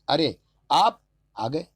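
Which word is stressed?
आप. The stress is on the second word.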